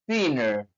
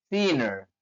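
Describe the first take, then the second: The two takes are said the same way.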